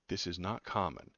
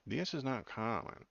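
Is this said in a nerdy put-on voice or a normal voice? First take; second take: normal; nerdy. First: It is said in the speaker's normal voice. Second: It is said in a put-on nerdy voice.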